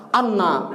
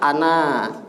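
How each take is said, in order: First: The middle is emphasized with a held n. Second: The word is said flat with a short n. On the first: It means 'indeed'. The speaker calls it wrong. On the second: It means 'I'. The speaker calls it right. "Jadi datar aja ana"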